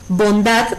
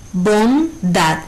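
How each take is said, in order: First: Said in the usual way. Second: BONDAD split in two, bon, dad; syllable by syllable. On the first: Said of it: "no tiene tilde gráfica". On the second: Shown as a demonstration. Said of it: "su sílaba tónica es dad".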